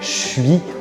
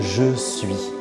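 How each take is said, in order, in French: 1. Le 'je' se dévoise en son 'ch'. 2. Le 'je' garde son son 'zh' sonore. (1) "les Français disent souvent" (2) "au lieu de"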